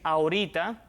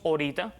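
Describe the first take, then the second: First: The first vowel is kept, standard style. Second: The first vowel is dropped, Cuban style.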